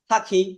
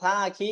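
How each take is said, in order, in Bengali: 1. প্রথম স্বরধ্বনিটি ছোট, কোনো টান নেই। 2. প্রথম স্বরধ্বনিটি লম্বা টান দিয়ে টানা হয়।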